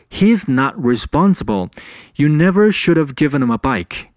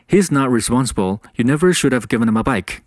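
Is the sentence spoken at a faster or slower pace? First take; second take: slower; faster. First: The sentence is spoken at a slower pace. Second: The sentence is spoken at a faster pace.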